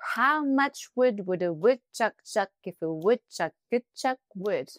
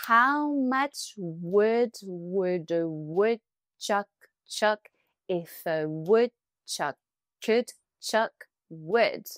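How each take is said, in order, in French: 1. La phrase est dite plus vite. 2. La phrase est dite lentement. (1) "Un peu plus vite" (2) "On y va doucement"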